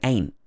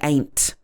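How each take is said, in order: First: The final T sound is dropped. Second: The final T sound is clearly pronounced. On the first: The speaker calls it right. "I'm missing out some of the T's" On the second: The speaker calls it wrong. "I don't say ain't"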